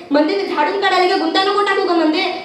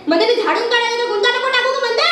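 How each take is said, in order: First: Repetitive singsong nag; nagging complaint. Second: Higher, fast, exasperated outburst; escalating nag. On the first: Woman sweeping, complaining about tangles, nagging. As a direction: moan rhythmically at her, still held in. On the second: Woman sweeping, fed up with tangles, shrieky nagging. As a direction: speed up and climb in pitch to the last word. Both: Acted.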